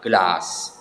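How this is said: It is said with a British accent. "kalau di British English itu dibaca glass"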